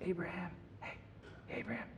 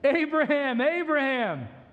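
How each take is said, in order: First: The name is called in a calm, casual voice. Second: The name is shouted loudly and urgently.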